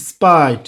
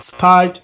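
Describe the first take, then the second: First: "স্পাইট" with no puff of air on P; unaspirated P after S. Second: "স্পাইট" with a puff of air after the S; wrongly aspirated P. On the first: Teacher giving the corrected form, "স্পাইট" with unaspirated P. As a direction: keep P in "স্পাইট" dry, straight into the vowel. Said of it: "aspiration হবে না". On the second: Teacher showing beginners' common mistake, "স্পাইট" with aspirated P. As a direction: breathe hard through the P of "স্পাইট". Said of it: "this is totally wrong". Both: Shown as a demonstration.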